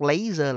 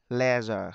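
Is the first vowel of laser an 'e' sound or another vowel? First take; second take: other vowel; e sound. First: The first vowel is not an 'e' sound. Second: The first vowel is an 'e' sound. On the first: The speaker calls it wrong. "Các bạn đọc laser là sai" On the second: The speaker calls it right. "đúng ra nó phải đọc là"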